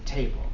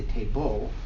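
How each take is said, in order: First: The stress is on the first syllable. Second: The stress is on the second syllable. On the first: The speaker calls it right. "In the first part" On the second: The speaker calls it wrong. "You wouldn't say table"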